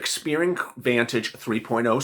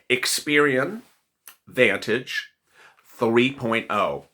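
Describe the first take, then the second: First: The phrase is said at normal speed. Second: The phrase is said slowly.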